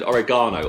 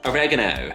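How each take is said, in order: First: It is said with a British pronunciation. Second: It is said with an American pronunciation.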